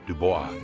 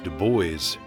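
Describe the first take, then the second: First: The name is said with a French pronunciation. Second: The name is said with an American pronunciation. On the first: "or in French pronunciation" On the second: "it's either pronounced in American English"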